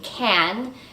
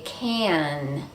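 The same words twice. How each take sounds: First: The vowel is short and plain before the N. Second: The vowel is longer and glides up into the N. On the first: The speaker calls it wrong. "instead of saying can" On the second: The speaker calls it right. "we say can"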